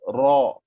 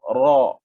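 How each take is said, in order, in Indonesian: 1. R hanya bergetar sedikit. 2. R hanya bergetar sedikit.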